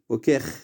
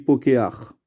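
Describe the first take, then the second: First: It ends with no added vowel before the consonant. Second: It ends with an added 'a' before the consonant. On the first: This is the regular pattern form. "Normalement, on aurait dû dire" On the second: The guttural letter changes the form. "À cause du chet, on change, on dit"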